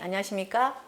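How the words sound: It is said at a middle pitch level. "미"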